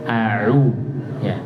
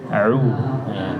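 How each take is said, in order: No difference in how they are said.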